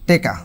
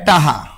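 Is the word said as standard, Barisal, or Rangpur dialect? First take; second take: Rangpur; Barisal. First: The first vowel becomes e: teka. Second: The k becomes an h: taha. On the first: "রংপুরের মানুষ কয় টেকা" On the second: "বরিশালেরা কয় টাহা"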